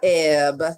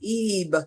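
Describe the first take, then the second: First: The vowel is a short E. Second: The vowel is a long E. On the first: The speaker calls it wrong. "and not Eb" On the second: The speaker calls it right. "You pronounce the word Eve"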